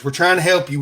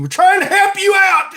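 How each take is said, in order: First: Said in the usual way. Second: High, loud mock desperation; mock pleading shout. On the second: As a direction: holler it like an exasperated hawker. Mock pleading sales pitch.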